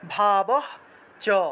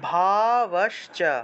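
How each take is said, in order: First: The words split with an h-like breath between. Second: The words run together with an 'sh' sound. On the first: "আলাদা করলে ... সেটা হয়ের মতো উচ্চারণ হবে" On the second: "যদি তালবস্যটাকে যদি আলাদা না করেন তাহলে ভাবশ্চ"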